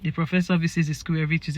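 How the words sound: The sentence is said in a flat tone. The speaker calls it wrong. "you can't say it in a flat tone"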